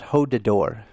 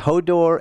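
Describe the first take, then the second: First: The name is said with an extra syllable. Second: The name is said with two syllables. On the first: The speaker calls it wrong. "you'd put in an extra syllable and say Hodador" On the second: The speaker calls it right. "It's Hodor"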